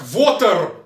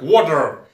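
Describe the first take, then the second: First: It is said with V, a Russian R and э. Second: It is said with an American pronunciation. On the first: The speaker calls it wrong. "это не русское произношение, это неправильное произношение" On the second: The speaker calls it right. "Есть американское произношение"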